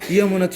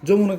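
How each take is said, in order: First: It is read Sanskrit-style, starting with a strong 'ya'. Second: It is read with a Bengali-style pronunciation. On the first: The speaker calls it right. "ইয়া- জোরে বলো।" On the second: The speaker calls it wrong. "যমুনা বললে সেটা বাংলা reading পড়া হয়ে যাচ্ছে না?"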